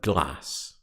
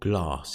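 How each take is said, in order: First: The word is said in a plain accent. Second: The word is said in a posh accent.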